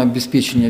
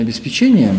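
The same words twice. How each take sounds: First: "обеспечения" stressed on ПЕ; stress variant. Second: "обеспечения" stressed on ЧЕ; stress variant. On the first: Linguist cites the first variant, stress on ПЕ in "обеспечения". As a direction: put the stress on the third syllable of "обеспечения". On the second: Linguist cites the second variant, stress on ЧЕ in "обеспечения". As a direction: put the stress on the fourth syllable of "обеспечения". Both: Shown as a demonstration. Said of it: "Русский язык в части ударения".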